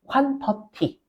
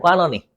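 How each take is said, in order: First: It has a plain, Korean-style pronunciation. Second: It has a rolled, American-style pronunciation. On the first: "한국말은 퀀터티" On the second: "발음 좀 굴려도 돼요?"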